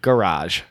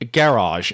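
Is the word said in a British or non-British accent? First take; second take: non-British; British. First: It is said in a non-British accent. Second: It is said in a British accent.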